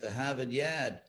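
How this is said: It is said in a Boston accent.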